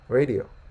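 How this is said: It is said with an American accent. "Americans say radio"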